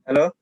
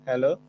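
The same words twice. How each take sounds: First: The voice sounds clearer and louder without echo. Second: The voice sounds echoey with some background noise. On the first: The speaker calls it right. "Coba aku nggak pakai headset. ... lebih keras sih" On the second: The speaker calls it wrong. "suaranya menggema ya? ... atau headsetku ya?"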